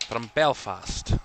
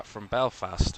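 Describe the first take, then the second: First: Slow, drawn-out mock Scottish accent on "From Belfast"; a playful put-on Scottish lilt. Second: Said in the usual way. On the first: Shown as a demonstration. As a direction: slip into a jokey Scottish accent. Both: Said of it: "Why do I use a Scottish accent".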